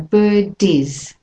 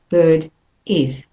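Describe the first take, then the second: First: The two words run together without a break. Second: The two words are said with a break. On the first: The speaker calls it right. "bird and is are linked. So bird is" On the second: The speaker calls it wrong. "not bird is"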